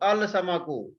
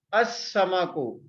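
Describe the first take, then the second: First: The article is said with a clear L. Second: The L blends into a doubled S sound. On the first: The speaker calls it wrong. "Tulisan al-samaku" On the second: The speaker calls it right. "Tapi kalau diucapkan as-samaku"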